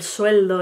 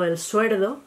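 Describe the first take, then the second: First: Said in the usual way. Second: El suerdo with the L said as R; Andalusian suerdo. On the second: Shown as a demonstration. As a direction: say suerdo, swapping L for R. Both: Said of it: "en vez del sueldo".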